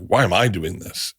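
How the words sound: It sounds accusatory.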